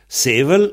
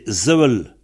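First: The word begins with an S sound. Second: The word begins with a Z sound. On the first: "on pense, donc, Sevel" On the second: "dans le pays pour l'être, c'est Zevel"

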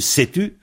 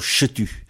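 First: The word begins with a plain s sound. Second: The word begins with a sh sound. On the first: This follows how the word is written. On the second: This is how the speaker's dialect says it. "nous chuintons le « s » en « che », nous disons"

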